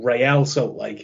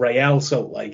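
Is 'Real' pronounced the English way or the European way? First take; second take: European; European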